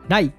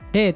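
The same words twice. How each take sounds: First: The character is read as 'rai'. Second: The character is read as 'rei'. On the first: This is the older reading used for Buddhist terms. "語音では礼" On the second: This is the later reading. "漢音では礼と読みます"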